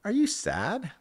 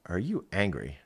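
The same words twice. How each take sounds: First: High, rising, gentle-sounding question; asking about sadness. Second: Asking about anger. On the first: Parent checking on crying nine-year-old, high rising question. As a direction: lift the voice right up on the question. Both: Retold or imitated. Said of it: "I was like".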